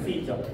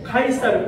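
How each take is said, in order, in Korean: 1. 이 이름은 영어식으로 발음합니다. Sijeo입니다. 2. 이 이름은 한국식으로 발음합니다. Kaisareu입니다. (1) "영어식 발음은 시저입니다" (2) "우리는 카이사르라고 부르고"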